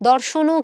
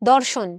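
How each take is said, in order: First: The word ends with a final 'o' vowel sound. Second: The word ends on the consonant, no final vowel. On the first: The speaker calls it wrong. "দর্শনও কিন্তু বলছি না" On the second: The speaker calls it right. "অ এর উচ্চারণ লোপ পেয়ে যাচ্ছে"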